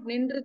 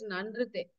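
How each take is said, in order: First: The first vowel is an 'i' sound. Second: The first vowel is an 'a' sound. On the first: The speaker calls it wrong. "It's not nindrite" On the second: The speaker calls it right. "it's nandrite"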